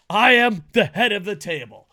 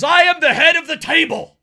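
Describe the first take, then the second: First: Loud, declarative promo boast; wrestler catchphrase. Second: High, loud wrestler boast; shouted catchphrase. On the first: Host acting a wrestler's promo, emphatic boast. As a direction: proclaim it firmly to the crowd. Repeats catchphrase more measured. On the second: Host quoting a wrestling promo, shouted boast. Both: Acted.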